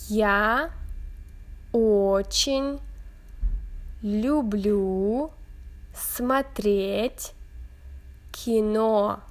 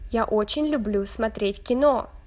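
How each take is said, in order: First: It is said at a slower pace. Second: It is said at a faster pace.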